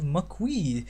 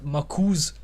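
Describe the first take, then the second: First: The final s sound is silent. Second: The final s sound is pronounced. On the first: The speaker calls it right. "I hope that's the right way to say it" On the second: The speaker calls it wrong. "It's definitely not Makuz, because that sounds weird"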